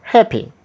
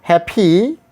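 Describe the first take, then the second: First: Happy with a short, falling final i; higher start on happy, quick light ending; happy ending on a brief ee, falling; short final vowel. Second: Happy with a drawn-out, rising final ee; happy ending on a long rising ee; wrong long ending. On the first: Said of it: "But the sound is A". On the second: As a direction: stretch the end of happy into a long ee. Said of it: "We are not saying". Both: Shown as a demonstration.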